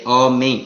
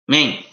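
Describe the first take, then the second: First: The opening vowel is clearly heard in the word. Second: The opening vowel is dropped from the word. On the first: The speaker calls it right. "He should say the full word" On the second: The speaker calls it wrong. "He shouldn't say main. Sounds like main"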